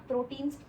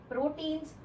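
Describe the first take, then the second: Both takes have the same delivery.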